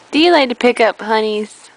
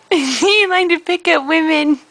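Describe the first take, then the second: First: Low, fast club-bro voice; a lower, quick teasing dude voice; deep dude voice. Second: Said in the usual way. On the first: Pretend. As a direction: growl it low like a party guy. Deep dude voice, then plain.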